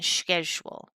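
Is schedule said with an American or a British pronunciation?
British. It is said with a British pronunciation. This is the usage being replaced.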